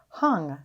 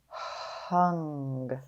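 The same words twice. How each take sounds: First: The word is said quickly as one unit. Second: The word is drawn out slowly, sound by sound. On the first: "Say it fast" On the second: "Tap and stretch"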